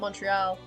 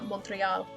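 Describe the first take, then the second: First: The name is said with a French pronunciation. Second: The name is said with an English pronunciation. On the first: The speaker calls it right. "I'm not even saying that correctly because I can't see, speak French anymore" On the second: The speaker calls it wrong. "not uh"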